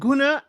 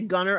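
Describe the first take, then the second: First: The name ends in a plain vowel without r. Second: The name ends in an r-colored vowel sound. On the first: This is how the couple themselves say it. "I'm saying it like that because they said it on the reunion is Guna" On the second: This is how people locally say it. "that's just a Western way of saying it"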